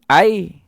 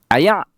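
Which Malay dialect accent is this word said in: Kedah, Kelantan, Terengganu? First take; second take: Kelantan; Kedah. First: Said in a Kelantan dialect accent. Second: Said in a Kedah dialect accent. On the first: "Kalau orang Kelantan sebut air" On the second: "kalau orang Kedah sebut air"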